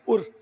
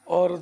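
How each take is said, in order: First: The word is said short with a reduced vowel. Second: The word is said fully with its full vowel. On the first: "ज़रूरतन इसको मुखफ़फ़ भी कर देते हैं" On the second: "और के दो तलफ़ुज़ बनते हैं"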